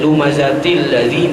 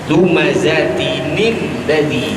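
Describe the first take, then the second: First: It goes straight from til into ladzi. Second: An extra nin sound comes before ladzi. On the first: The speaker calls it wrong. "makna kita buang tanwin" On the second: The speaker calls it right. "nun iwad, maknanya nun yang menggantikan tanwin"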